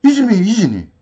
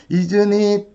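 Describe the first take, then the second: First: Isn't it run together like "inni", falling tune; native linked pronunciation. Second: Each word said separately, isn't it with a clear t; imitating Korean teachers saying Isn't it stiffly; stiff textbook pronunciation. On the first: Shown as a demonstration. Teacher demonstrating the native way, linked and falling. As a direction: blur Isn't it into one quick word. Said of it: "말버릇 그대로 만들어야 이게 나온다". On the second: 한국 유튜버 강사 흉내, 또박또박 딱딱한 발음. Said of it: "이렇게 발음하죠".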